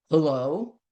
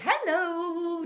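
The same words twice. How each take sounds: First: Gruff hello. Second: A high, softer sing-song hello; the wrong bright greeting for a gruff caller; too chirpy hello. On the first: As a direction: answer like a grumpy caller. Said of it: "answers the phone a little bit gruff". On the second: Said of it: "You aren't going to say". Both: Shown as a demonstration.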